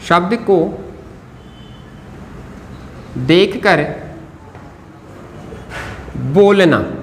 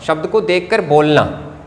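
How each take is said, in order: First: Each word set apart by long pauses; writing-pace dictation. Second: Said in the usual way. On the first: Real, not acted. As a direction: say it piece by piece while writing. Writes the phrase while saying it.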